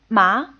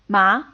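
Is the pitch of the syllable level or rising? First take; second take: rising; rising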